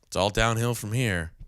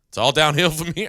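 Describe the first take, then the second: First: It is said in a gloomy, negative tone. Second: It is said in an upbeat, positive tone. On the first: Things will only get worse now. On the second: The rest will be easy now.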